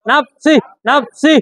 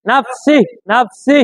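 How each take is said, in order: First: Slow drawn reading. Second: Said in the usual way. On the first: Shown as a demonstration. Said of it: "আবার নাফসি বানান কি". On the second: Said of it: "সম্পূর্ণ কথা আপনার বলতে হবে".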